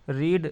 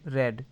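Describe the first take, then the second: First: The vowel is long, like 'reed'. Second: The vowel is short, like 'red'. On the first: It is the present form. "रीड का उच्चारण change हो जाता है" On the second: It is the past participle form. "First, second, third form"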